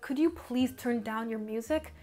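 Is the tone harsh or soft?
harsh. It is said in a harsh, attacking tone.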